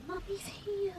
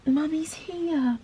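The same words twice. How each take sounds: First: High, whispered comfort to a pet; soothing whisper. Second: Slow, soft, higher comforting voice to a pet; gently calm a trembling dog; soothing. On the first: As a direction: breathe it softly to a scared dog. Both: Real, not acted. Soothing her shaking dog.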